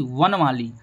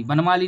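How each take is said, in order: First: वनमाली with v as first sound, pitch falling; correct pronunciation. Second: वनमाली with b for the first sound; wrong pronunciation. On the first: Teacher giving pupils the right form, वनमाली started on v. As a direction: open वनमाली on v rather than b. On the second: Teacher rejecting a wrong form, वनमाली started on b. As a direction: mispronounce वनमाली, opening on b instead of v. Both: Shown as a demonstration. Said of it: "वनमाली नहीं".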